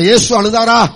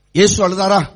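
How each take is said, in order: First: Slightly raised, firmer question; a bit louder. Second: Said in the usual way. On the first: Shown as a demonstration. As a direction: put a little more sound into it. (கொஞ்சம் சத்தமாக) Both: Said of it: "கொஞ்சம் சவுண்டா சொல்லுங்க".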